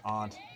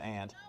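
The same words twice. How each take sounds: First: It is said the way locals up north say it. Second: It is said the way Floridians say it. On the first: "but it's pronounced aunt" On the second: "everybody down there says aunt"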